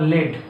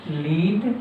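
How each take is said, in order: First: लेड said "led" with a short e; लेड with a short clipped e. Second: लीड said "leed" with a long ee; लीड with a long ee vowel. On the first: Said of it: "इसे लेड पढ़ रहा है". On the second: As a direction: say लीड as "leed", like the verb to lead. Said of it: "इसे लीड पढ़ रहा है". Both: Shown as a demonstration.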